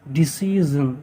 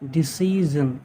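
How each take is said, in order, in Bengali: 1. শেষাংশটি 'zhun' এর মতো শোনায়। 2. শেষাংশটি 'zhun' এর মতো শোনায়।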